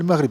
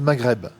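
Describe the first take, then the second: First: The word is said with an Arabic pronunciation. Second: The word is said with a French pronunciation. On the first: "Maghrib en arabe" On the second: "En français"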